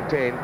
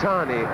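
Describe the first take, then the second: First: The name is said the British way. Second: The name is said the New Zealand way. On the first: This is how the name is said in Britain. "the lads call him Tane" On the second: This is how the name is said at home. "I believe in New Zealand it's Tani"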